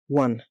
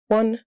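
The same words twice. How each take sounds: First: The pitch falls at the end. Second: The pitch rises at the end. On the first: "another with a downward inflection" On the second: "one with an upward inflection"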